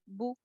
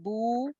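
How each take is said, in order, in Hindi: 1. स्वर बहुत छोटा रखा जाता है। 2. स्वर लंबा खींचा जाता है। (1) "बू बू बस" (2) "आवाज को लंबा नहीं करना, बू नहीं करना"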